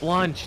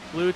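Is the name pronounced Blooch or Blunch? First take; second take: Blunch; Blooch. First: The name is said with an n sound. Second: The name is said without an n sound. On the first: The speaker calls it right. "yeah, that's right" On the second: The speaker calls it wrong. "I always say it wrong"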